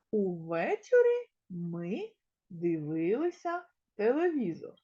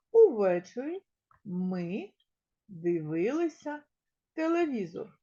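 First: Said in the usual way. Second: Увечері, ми, дивилися, телевізор with pauses between; counting words. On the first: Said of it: "Складемо речення". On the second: Shown as a demonstration. Teacher counting words in the sentence aloud. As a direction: pause after each word to count them. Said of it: "порахуємо, скільки слов".

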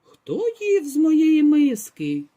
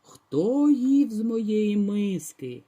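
First: Slow, louder mama bear voice; a hint of a gruff mother bear; mama bear, less loud. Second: Slow, heavy papa bear voice; lightly voiced growling bear; big bear's frightening roar. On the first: Mama bear asks about her bowl, slow and louder. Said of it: "заревіла не так голосно". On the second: Papa bear roars at the girl who ate from his bowl, slow and heavy. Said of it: "заревів страшним голосом". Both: A narrator's reading.

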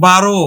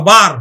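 First: "বারো" ending in a clear ro; final o sound. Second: "বার" closed on the r; "বার" with a bare r ending; read as written. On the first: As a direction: say "বারো" as two syllables with an o. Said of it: "রয়ের ওকার". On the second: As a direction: say "বার" as one syllable, no final o. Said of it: "আমরা লিখি কিন্তু বয়াকার র". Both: Shown as a demonstration.

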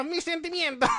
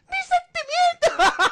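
First: Small, half-hearted wounded reply; mock hurt. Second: High, slow hammed-up cry; mock wounded wail. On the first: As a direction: act mildly hurt through laughter. Hurt Pokémon reply, acted lightly. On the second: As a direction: drag out a squeal of hurt feelings. Hurt Pokémon reply, acted.

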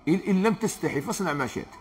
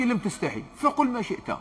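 First: Said in the usual way. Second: فقل lifted higher and pressed as the new word; higher pitch, landing hard on فقل; stress on فقل. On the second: Shown as a demonstration. Preacher recasting the hadith for the congregation, stressing فقل. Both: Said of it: "وأنا نقول لك".

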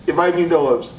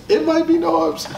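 First: Said in the usual way. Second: Sudden jump way up in pitch; teasing high-pitched repeat; high squeaky repeat. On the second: Shown as a demonstration. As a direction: toss the name out in a high put-on voice.

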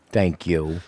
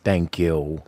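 No difference in how they are said.

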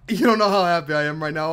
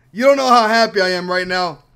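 First: Said in the usual way. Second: Louder, leaning on don't; emphatic joy. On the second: Real, not acted. Gamer insists to viewers how happy he is, emphatic. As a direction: push it out to the viewers.

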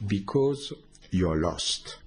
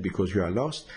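First: Slow, a hint of a solemn master voice; master's voice. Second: Said in the usual way. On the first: Teller quoting the dead master's answer, slow and solemn. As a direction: lightly voice the dead master, slowly. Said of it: "he said". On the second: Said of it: "And when he said".

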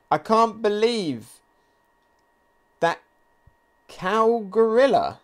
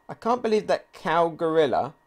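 First: Slow, higher, deliberate reading of "cow gorilla"; slow dramatic reading. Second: Said in the usual way. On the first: Acted. Reading Yamato's line to viewers, slow and dramatic. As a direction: draw out the line for effect.

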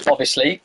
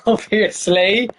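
First: Said in the usual way. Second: "Obviously" stretched very slowly with a rising end; mock drawn-out. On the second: Shown as a demonstration. Streamer teasing after getting the name wrong, slow drawn-out "Obviously". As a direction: drag out "Obviously" sarcastically.

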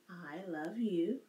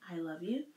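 First: Slow signing demo. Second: Said in the usual way. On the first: Shown as a demonstration. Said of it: "you can also do, "I love you," like this". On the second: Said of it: "in a code".

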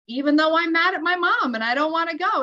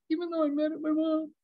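First: Higher, emphatic modeling of a phrase; firm tapping prompt. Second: Quick, high, sulky little voice; grudging child's repetition. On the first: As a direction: lead an upset child through the words. Mother models tapping phrase for angry son. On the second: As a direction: imitate a kid reluctantly parroting mom. Sulky son repeats mother's phrase. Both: Retold or imitated.

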